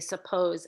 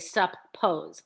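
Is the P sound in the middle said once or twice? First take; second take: once; twice. First: The p sound is pronounced once. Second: The p sound is pronounced twice. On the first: The speaker calls it right. "that P is only articulated once, not twice" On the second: The speaker calls it wrong. "I don't say suppose"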